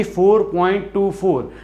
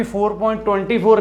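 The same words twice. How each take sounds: First: टू फ़ोर spoken as separate digits, two then four. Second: ट्वेंटी फ़ोर said as one number, twenty-four; wrong reading. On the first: Teacher giving students the correct pronunciation, digit by digit. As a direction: say टू and फ़ोर apart, each digit alone. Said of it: "इसकी pronunciation रहेगी". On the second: Teacher warning students about the wrong reading, twenty-four. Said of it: "कभी भी ... नहीं बोलेंगे". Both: Shown as a demonstration.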